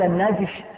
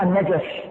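First: النجش with a vowelless jim; one closed syllable "najsh" in النجش; sukun on jim. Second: النجش with an "a" after the jim; two short syllables "na-jash" in النجش; fatha on jim. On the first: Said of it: "يجوز فيه سكون الجيم". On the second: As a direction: say النجش as "an-najash". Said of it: "بفتح الجيم". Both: Shown as a demonstration.

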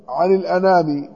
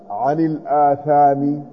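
First: الأنام read with a nūn, short first vowel; careful textual reading of الأنام with n; accepted reading. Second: الآثام with long opening ā and th; drawn-out الآثام, th in place of n; variant reading. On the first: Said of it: "قال بالثاء عن الأنام هكذا". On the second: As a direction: slowly sound out الآثام with a th. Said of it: "قال بالثاء المثلثة". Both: Shown as a demonstration.

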